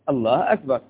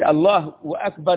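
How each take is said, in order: First: Akbar follows Allah with no w sound. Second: A w sound is inserted before Akbar. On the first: The speaker calls it right. "لا هو الله هو الأكبر" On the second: The speaker calls it wrong. "لو قلت الله وأكبر يقول في حاجة ثانية"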